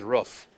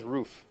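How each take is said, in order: First: Roof said with a short oo, as in hoof. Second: Roof said with a long oo, as in goof. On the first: Teacher asking who says roof, short oo like hoof. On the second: Teacher asking who says roof, long oo like goof. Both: Shown as a demonstration. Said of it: "That's about half and half".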